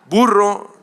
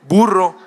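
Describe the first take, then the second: The two takes are said the same way.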